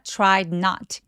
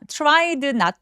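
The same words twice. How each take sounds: First: The d sound is clipped and barely heard. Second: The d sound is fully released before 'not'. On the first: The speaker calls it right. "디귿 받침처럼 가볍게 처리하고 넘어가 주시면 돼요" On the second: The speaker calls it wrong. "tried not이 아니라"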